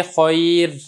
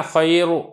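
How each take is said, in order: First: खैर drawn out slowly with a thin, light र; slow model reading of खैर, keeping the र thin. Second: खैर said with a full, heavy र, as the mistake to avoid; mock the wrong reading of खैर with a heavy र. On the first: Teacher shows students the correct thin र in खैर. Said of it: "रा को बारीक ही पढ़ना है". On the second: Teacher warns students against a heavy र in खैर. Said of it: "ऐसे नहीं पढ़ेंगे". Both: Shown as a demonstration.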